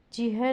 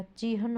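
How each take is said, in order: First: चिह without the final "n"; misspelling read out. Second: Said in the usual way. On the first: Shown as a demonstration. Teacher showing a misspelling, final sound missing. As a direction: leave the "n" off चिह. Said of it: "नहीं होता". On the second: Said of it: "होता है".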